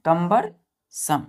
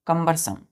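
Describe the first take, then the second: First: Cumbersome stretched out very slowly; slow model word. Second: Cumbersome at normal pace as kum-ber-sum; normal-speed model. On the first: Teacher showing pupils how to read cumbersome, slow. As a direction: sound out cumbersome slowly, kum-ber-sum. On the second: Teacher repeating cumbersome for pupils, at normal pace. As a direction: say cumbersome quickly and clearly. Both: Shown as a demonstration. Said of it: "इसको क्या पढ़ेंगे".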